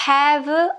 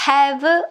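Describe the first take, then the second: The two takes are said the same way.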